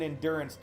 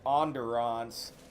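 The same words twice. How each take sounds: First: It is said with a plain American accent. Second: It is said with a French accent.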